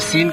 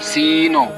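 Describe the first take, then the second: First: The word ends smoothly without an added push. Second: The word ends with an abrupt jerk. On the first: The speaker calls it right. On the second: The speaker calls it wrong.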